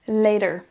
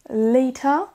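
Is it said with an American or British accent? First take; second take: American; British. First: It is said with an American accent. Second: It is said with a British accent.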